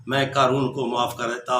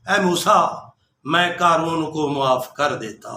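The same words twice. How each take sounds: First: Much softer, almost breathed repeat; fading to a hush. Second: Hushed, gentle telling of mercy. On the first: God's repeated words to Moses, dying away to a hush. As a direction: let the repeat sink to a near-hush. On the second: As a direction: speak it low and kindly, like a secret of mercy. God tenderly tells Moses. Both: Acted.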